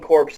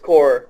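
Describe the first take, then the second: First: The word ends with a clear p and s sound. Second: The word ends without any p or s sound. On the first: The speaker calls it wrong. "they're saying it wrong" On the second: The speaker calls it right. "It's core"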